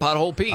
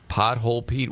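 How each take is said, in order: First: The phrase is said at a normal pace. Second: The phrase is said slowly and deliberately.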